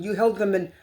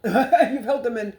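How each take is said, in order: First: Said in the usual way. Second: Slow, laughing at her own hiccups; laughing through hiccups. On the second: Real, not acted. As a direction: giggle through the words with hiccups. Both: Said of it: "I'm hiccuping".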